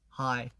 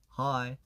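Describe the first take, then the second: Both takes have the same delivery.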